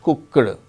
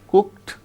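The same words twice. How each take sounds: First: The ending is not a t sound. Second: The ending is a t sound. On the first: The speaker calls it wrong. "it is not cooked" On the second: The speaker calls it right. "the past tense marker in such cases is pronounced as a t"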